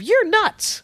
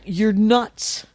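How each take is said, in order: First: It is said in a light, friendly tone. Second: It is said in a mean, threatening tone. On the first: The remark is a playful compliment. "Instead of" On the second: The remark feels vaguely threatening. "in the weirdest, meanest voice"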